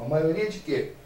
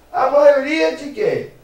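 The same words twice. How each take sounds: First: Said in the usual way. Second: "maioria" hit high and loud, slowly; emphatic teaching question. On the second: Shown as a demonstration. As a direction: punch "maioria" hard and slow. (professor enfatiza "maioria", alto e devagar)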